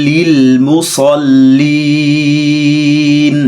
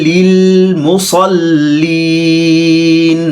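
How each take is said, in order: The two takes are said the same way.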